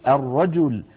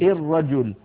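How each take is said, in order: First: The first vowel is an open 'a' sound. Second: The first vowel is not an open 'a' sound. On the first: The speaker calls it right. "بل يقولون" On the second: The speaker calls it wrong. "ولا يقولون"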